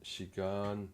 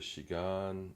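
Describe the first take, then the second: First: The pitch rises on the last syllable. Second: The same.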